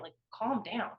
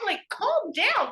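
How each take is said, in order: First: Said in the usual way. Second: "calm down" much higher, louder and drawn out slowly; exasperated plea. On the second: Retold or imitated. Daughter begging her frantic mom on the phone, high, slow exasperated "calm down". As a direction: stretch "calm down" out high and loud, pleading with her.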